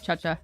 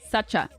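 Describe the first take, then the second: First: The name begins with a ch sound. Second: The name begins with an s sound. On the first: "a common mistake because of the ch in the middle" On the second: "It's like sacha. Like that"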